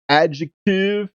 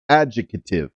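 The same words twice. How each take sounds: First: It is said with the usual vowel sounds. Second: It is said with one extra vowel sound. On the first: The speaker calls it wrong. "it should have an extra vowel, uh, and it doesn't" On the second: The speaker calls it right. "It should be adjective"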